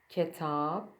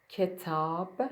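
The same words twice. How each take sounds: Both takes have the same delivery.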